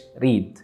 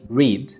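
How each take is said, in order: First: The r is a rolled, Arabic-style r. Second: The r is a soft, unrolled English r. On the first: The speaker calls it wrong. "ما قلتش read" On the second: The speaker calls it right. "حرف الR بيتنطق R R مش زي العربي"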